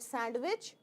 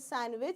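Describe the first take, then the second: First: A d sound is heard in the middle. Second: No d sound is heard in the middle. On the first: The speaker calls it wrong. "you call it sandwich" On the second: The speaker calls it right. "Duh is not there. So it is sandwich"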